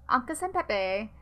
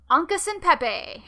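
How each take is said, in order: First: Said in the usual way. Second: High, loud relish of the name; playful relish. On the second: Shown as a demonstration. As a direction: belt out the name with playful flourish. Relishes the name, then apologises.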